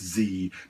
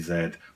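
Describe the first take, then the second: First: The letter is said as zee, American style. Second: The letter is said as zed, British style.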